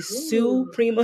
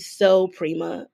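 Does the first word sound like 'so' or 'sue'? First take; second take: sue; so. First: The first word has an 'oo' vowel. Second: The first word has an 'oh' vowel. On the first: The speaker calls it wrong. "I always want to say Sue Prima" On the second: The speaker calls it right. "but it's actually So Prima"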